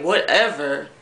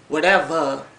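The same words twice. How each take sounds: First: The final R sound is clearly pronounced. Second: The final R sound is dropped. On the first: "They don't say whatever" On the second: "They say whatever"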